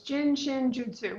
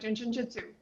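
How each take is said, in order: First: The phrase is said slowly with a full last word. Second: The phrase is said fast with a reduced last word. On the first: "So it's Jin Shin Jutsu" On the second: "when you say it fast, it sounds like"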